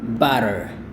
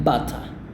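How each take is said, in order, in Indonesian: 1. Diucapkan dengan aksen Amerika. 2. Diucapkan dengan aksen Inggris. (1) "itu aksen Amerika" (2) "Mereka bilang butter"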